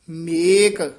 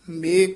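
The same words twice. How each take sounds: First: The final k sound is fully pronounced. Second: The final k sound is weak. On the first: The speaker calls it right. "ਇਸ ਤਰ੍ਹਾਂ ਪੂਰਾ ਕੱਕਾ ਬੋਲਣਾ ਹੈ" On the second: The speaker calls it wrong. "ਆਮ ਕਈ ਮੇਕ ਘਰੀ ਕਹਿ ਜਾਂਦੇ ਹਨ"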